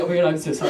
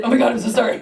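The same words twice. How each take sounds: First: Lightly voiced bear, lower and quick; apologetic Canadian bear. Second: Startled but polite apology; apologetic instead of screaming. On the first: Canadian bear answering the hiker, low and apologetic. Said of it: "the bear was Canadian, so he was like". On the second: Retold or imitated. Hiker apologising to a bear, startled and polite. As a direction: apologise at your usual pitch, fairly firmly. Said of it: "I didn't scream, I said".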